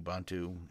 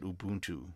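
First: The first U is a short vowel. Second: The first U is a high vowel. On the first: This is the speaker's own usual pronunciation. "I live with the short U and not the high U" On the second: This is how other people say it. "I have friends who say it Ubuntu"

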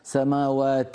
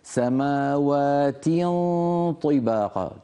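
First: The vowel after the t is tilted toward e. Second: The vowel after the t is a full i. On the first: The speaker calls it wrong. "وليس سماوات، هذه إمالة" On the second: The speaker calls it right. "اكسر التاء كسر كامل"

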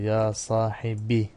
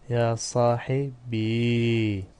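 First: The word ends in a short i vowel. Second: The word ends in a long, unvowelled i. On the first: "Ve mütekellim yası hasfedilebilir" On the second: "Mütekellim yası sakindir"

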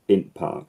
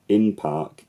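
First: The word 'in' ends in a sudden catch in the throat before 'park'. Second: The word 'in' runs into 'park' with no catch in the throat. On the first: The speaker calls it right. "it's int park" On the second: The speaker calls it wrong. "it's not in park"

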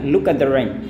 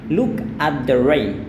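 First: The word 'at' is shortened and reduced. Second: The word 'at' is said in full. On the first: "tapi bisa bilang look at the rain" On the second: "aku nggak bilang look at the rain"

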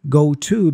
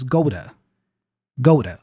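First: The t in 'to' is a clear t. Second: The t in 'to' is a quick flap.

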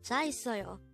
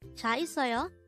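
First: The pitch falls at the end. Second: The pitch rises at the end. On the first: It states that the speaker has a car. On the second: It asks whether the listener has a car.

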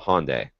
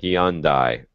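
First: The name is said the usual, non-Australian way. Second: The name is said the Australian way.

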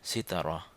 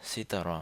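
The two takes are said the same way.

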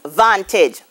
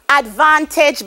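First: The unstressed first syllable is dropped. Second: The unstressed first syllable is pronounced.

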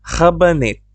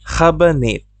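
No difference in how they are said.

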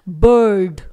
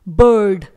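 Both takes have the same delivery.

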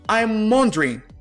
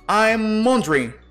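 First: The final g sound is dropped. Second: The final g sound is dropped.

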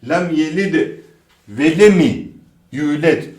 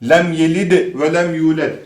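First: An extra i vowel follows the second lem. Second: No extra vowel follows the second lem. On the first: The speaker calls it wrong. "Bu da yok arkadaşlar. Hızlı okunduğunda i eklenebiliyor" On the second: The speaker calls it right. "i harfi yok"

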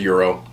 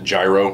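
First: The word is pronounced in a non-anglicized way. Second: The word is pronounced in an anglicized way. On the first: The speaker calls it right. "but it's a gyro" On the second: The speaker calls it wrong. "Some people do pronounce it gyro, and I think it's just like an anglicized version"

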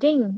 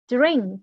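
First: The word is said without an R sound. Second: The word is said with a rolled R sound. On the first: The speaker calls it wrong. "không là ding, mà nó còn có chữ R mà" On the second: The speaker calls it right. "Âm R, âm rung ở đấy nha"

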